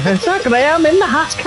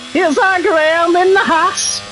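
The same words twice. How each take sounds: First: Higher, a bit brighter take of the [name] line; retry the [name] voice, a little more out. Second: A hint of [name] hosting a show. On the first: Retold or imitated. Commentator redoes his [name] intro after saying it was quiet, higher voice. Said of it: "So quiet". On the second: A touch of a TV hostess introducing Graham, high voice. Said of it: "only literally the surprise, surprise".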